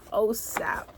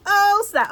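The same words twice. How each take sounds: First: Said in the usual way. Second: "Oh, snap" thrown up high and loud; real delight bursting out; excited "Oh, snap". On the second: Real, not acted.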